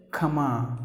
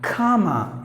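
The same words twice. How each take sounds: First: Comma with a short uh, as kum-ma; short sound. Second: Comma with a long open ah, higher; long sound. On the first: Teacher showing what we usually say, comma with short first vowel. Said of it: "short sound". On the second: Teacher correcting learners, comma with a long first vowel. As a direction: stretch comma into KAAH-muh. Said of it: "say it with a long sound". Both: Shown as a demonstration.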